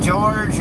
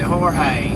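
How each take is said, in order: First: The name sounds like the English name George. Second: The name is read out the way it's spelled. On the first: "I would pronounce it George" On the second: "the way it's spelled as Jorge"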